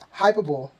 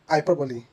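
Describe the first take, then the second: First: The word has three syllables. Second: The word has four syllables. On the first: The speaker calls it wrong. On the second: The speaker calls it right. "making these words four syllables instead of three"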